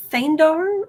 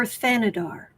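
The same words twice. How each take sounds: First: "Thandar" said in two syllables; unsure name pronunciation. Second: "Thanadar" said in three syllables; alternative name pronunciation. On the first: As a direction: try "Thandar" as Than-dar, no middle vowel. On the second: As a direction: try "Thanadar" as Than-a-dar, with a middle vowel. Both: Shown as a demonstration. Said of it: "don't know how to pronounce it".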